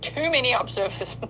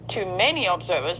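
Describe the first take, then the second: First: The first word is stressed. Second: The first word is unstressed. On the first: There are an excessive number of observers. The speaker calls it wrong. "When I put the emphasis on the wrong word, it comes out different" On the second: In the view of many observers. The speaker calls it right. "Let's read that sentence again"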